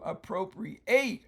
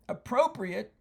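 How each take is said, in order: First: The final syllable is said with stress. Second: The final syllable is said without stress. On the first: It means to take something for one's own use. "change the accent from appropriate to appropriate on the end" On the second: It means suitable or proper. "that means suitable or proper to the circumstance"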